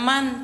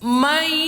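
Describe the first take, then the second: First: The word ends with a clear n sound. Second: The n merges into a nasalized y glide. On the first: The speaker calls it wrong. "bukan man" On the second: The speaker calls it right. "maka bunyinya mai"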